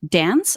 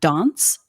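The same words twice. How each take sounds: First: It is said with an American vowel. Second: It is said with a British vowel. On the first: "it had to be dance" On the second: "not dance ... how I grew up ... British English"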